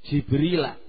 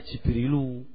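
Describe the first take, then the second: First: The name ends with an 'a' vowel. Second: The name ends with a 'u' vowel. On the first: The speaker calls it right. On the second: The speaker calls it wrong. "Jangan dibaca Jibrilu"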